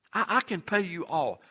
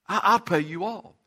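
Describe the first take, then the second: First: Soft, pleading promise to pay; quiet begging. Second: Plea pushed out louder, higher; louder begging. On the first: Fellow servant begging at his feet, soft plea. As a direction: plead it softly, almost under breath. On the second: Fellow servant begging again, urgent louder plea. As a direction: repeat the promise urgently, louder. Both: Acted. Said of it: "he begged him".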